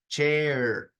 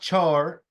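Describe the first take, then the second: First: The vowel glides between two sounds. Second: The vowel is a single plain sound. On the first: The speaker calls it right. "So two vowel sounds" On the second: The speaker calls it wrong. "it's not char"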